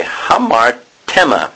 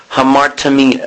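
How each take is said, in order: First: Hamartema slowly, broken as ha-mar, TEM-a; corrected pronunciation. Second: Hamartimia ending in mee-na or mee-a; mistaken pronunciation. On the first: Preacher correcting himself on a Greek word, careful pronunciation. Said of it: "I can't remember how to pronounce it". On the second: Preacher misreading a Greek term, mistaken pronunciation. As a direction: say Hamartimia with an EE in the third syllable. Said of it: "sorry, hamartema". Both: Shown as a demonstration.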